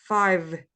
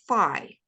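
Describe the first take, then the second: First: The word ends with a clear v sound. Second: The word ends without any v sound. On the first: The speaker calls it right. "it's also important to pronounce the v" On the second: The speaker calls it wrong. "it sounds like you say fi, F I"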